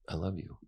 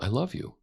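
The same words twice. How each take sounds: First: It sounds sad and helpless. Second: It sounds defiant and insistent.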